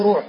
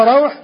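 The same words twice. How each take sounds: First: روح said ROOH; روح with a pure rounded vowel; mistaken damma form. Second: روح said RAWH; روح with a gliding into w; fatha form. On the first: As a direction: say روح as ruuh with long u. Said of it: "أخطأ بعض المحدثين فقال عنه". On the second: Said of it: "وفي المتقدمين". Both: Shown as a demonstration.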